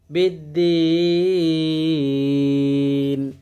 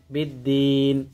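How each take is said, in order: First: বিদ্দীন with the final ee drawn out very long; three-alif stretch. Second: Said in the usual way. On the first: Shown as a demonstration. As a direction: hold the ee of বিদ্দীন for three beats. (বিদ্দীন শব্দে তিন আলিফ লম্বা টান) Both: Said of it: "তিন আলিফ টান".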